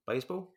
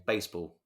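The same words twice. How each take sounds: First: Baseball? asked with a rising, unsure tune; questioning rise. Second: Said in the usual way. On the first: Real, not acted. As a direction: make Baseball? a puzzled question, pitch going up at the end.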